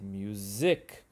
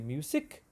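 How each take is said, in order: First: The middle consonant is a voiced z sound. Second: The middle consonant is a voiceless s sound. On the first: The speaker calls it right. "we say music" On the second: The speaker calls it wrong. "we don't say music"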